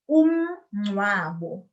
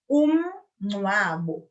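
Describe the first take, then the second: No difference in how they are said.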